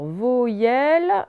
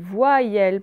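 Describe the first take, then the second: First: The first syllable is said as plain 'vo'. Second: The first syllable is said as 'vwa'. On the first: The speaker calls it wrong. "on ne dit pas voyelle" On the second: The speaker calls it right. "on dit voyelle, ... Il vaut le I pour faire wa et le I pour faire yel"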